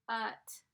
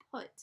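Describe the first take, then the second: First: "put" whispered and stretched out sound by sound. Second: "put" said the normal way, as it really sounds; real pronunciation. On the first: Teacher sounding out "put" in a whisper. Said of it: "If I were to stretch this word out". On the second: Teacher giving the real sound of "put". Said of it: "but it's not put, it's put". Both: Shown as a demonstration.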